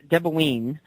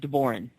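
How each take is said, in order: First: The word is said with an Irish pronunciation. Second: The word is said with an American pronunciation. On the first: "The Irish pronunciation of this is" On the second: "but in American we just say"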